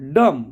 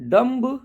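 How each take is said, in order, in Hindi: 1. इस शब्द का अंत m ध्वनि से होता है, b से नहीं। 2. इस शब्द का अंत एक सुनाई देने वाली b ध्वनि से होता है। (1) "हमको वैसे ही बोलना डम" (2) "ऐसे बोलेंगे तो थोड़ा रॉन्ग लगेगा"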